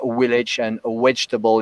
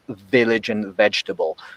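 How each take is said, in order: First: The v sounds are said like w. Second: The v sounds are said as normal v. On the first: "the w sound, um, where the lips don't meet" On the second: "instead of"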